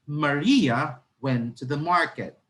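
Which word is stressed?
Maria. The stress is on Maria.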